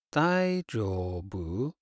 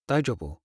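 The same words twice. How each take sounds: First: Slow. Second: Said in the usual way. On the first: Shown as a demonstration. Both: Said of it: "many situations".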